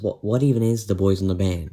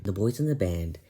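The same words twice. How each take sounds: First: Louder, baffled heckler's question; dismissive question. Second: Said in the usual way. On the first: Acted. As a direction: ask it like an unimpressed heckler. Acted heckler asks, narrator then answers.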